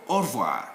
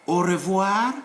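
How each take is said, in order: First: "au revoir" squeezed to or-vwar; optional e dropped. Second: "au revoir" in three syllables, o-re-vwar; optional e pronounced. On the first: Teacher giving the short option, e dropped. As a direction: skip the e, r straight into v in "au revoir". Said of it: "or you can delete it". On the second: Teacher giving the full option, e kept. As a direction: sound the e in "au revoir". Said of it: "it's up to you to say". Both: Shown as a demonstration.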